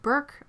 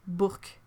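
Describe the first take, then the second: First: "Burke" said the English way, like "berk"; English pronunciation. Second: "Burke" said the French way, like "Bourk"; French pronunciation. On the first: Asking chat about a priest's name, English pronunciation. Asks which of two pronunciations. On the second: Asking chat about a priest's name, French pronunciation. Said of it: "Because in French, it's Burke". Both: Shown as a demonstration.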